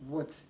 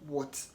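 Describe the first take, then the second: Both takes have the same delivery.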